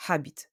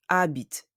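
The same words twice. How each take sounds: First: "habit" with an audible breathed H at the start; H sounded. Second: "habite" starting straight on the A; silent H. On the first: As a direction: puff out the H in "habit". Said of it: "not habit". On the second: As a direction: drop the H of "habite", French style. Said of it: "The H of habite is silent". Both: Shown as a demonstration.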